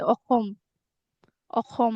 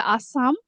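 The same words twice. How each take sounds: First: "Akhom" with a throaty kh and rounded o vowels; Assamese pronunciation. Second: "Assam" with an s sound and open a vowels; English pronunciation. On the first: Telling her friend the name in her language, Assamese pronunciation. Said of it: "in our language, we say". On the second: Local woman teaching her friend the English name, English pronunciation. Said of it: "In English, we say Assam". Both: Shown as a demonstration.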